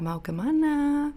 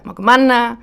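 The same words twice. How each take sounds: First: It is said in a Central Javanese accent. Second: It is said in a Torajan accent, sounding angry.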